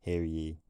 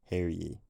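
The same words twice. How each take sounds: No difference in how they are said.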